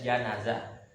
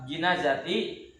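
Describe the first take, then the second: First: The first syllable has the vowel 'a'. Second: The first syllable has the vowel 'i'. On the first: It names the dead body lying in the bier. "Kalau dibaca janazah ya, itu adalah satu nama bagi mayit yang ada dalam keranda" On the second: It names the bier that holds the dead body. "Kalau dibacanya uh, jinazati ya, ... sebuah nama bagi keranda yang di dalamnya ada ma mayit"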